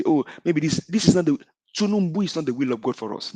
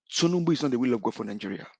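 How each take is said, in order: First: Raised, mocking imitation of their excuse; parroting the other side, pitched up and dismissive; mock quote. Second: Said in the usual way. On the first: Host mimics opponents' quick excuse, mildly mocking. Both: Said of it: "what they can quickly say".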